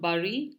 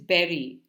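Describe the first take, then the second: First: The word does not sound like the fruit 'berry'. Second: The word sounds exactly like the fruit 'berry'. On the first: The speaker calls it wrong. "It's not bury the way it's normally pronounced" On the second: The speaker calls it right. "It is berry. So like the fruit"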